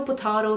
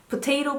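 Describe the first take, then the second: First: "potato" with a broad AH, po-TAH-to. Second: "potato" with a long AY, po-TAY-to. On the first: Waving off brand names to viewers, "potato" said po-TAH-to. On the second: Waving off brand names to viewers, "potato" said po-TAY-to. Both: Shown as a demonstration. Contrasting the two familiar pronunciations.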